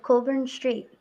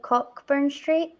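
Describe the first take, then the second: First: "Cockburn" said as "Coburn", silent ck; local pronunciation. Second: "Cockburn" said as spelt, with COCK; spelling pronunciation. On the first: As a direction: say "Cockburn" as COE-burn. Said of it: "but it's spelled like". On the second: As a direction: sound out the ck in "Cockburn". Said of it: "it's spelled like". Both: Shown as a demonstration.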